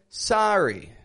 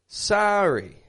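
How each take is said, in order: First: It is said with an American accent. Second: The same.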